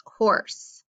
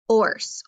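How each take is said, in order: First: Said in the usual way. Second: "horse" split as h, pause, orse; teacher segmenting "horse" into h and orse; sounded out in parts. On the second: Shown as a demonstration. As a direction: isolate the breathed h of "horse", then add the rest. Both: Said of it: "let's break that apart".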